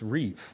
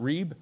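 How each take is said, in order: First: The word ends with a v sound. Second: The word ends with a b sound. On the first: The speaker calls it right. "it's Reeve" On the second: The speaker calls it wrong. "It's not Reeb"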